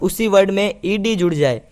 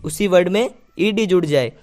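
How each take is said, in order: No difference in how they are said.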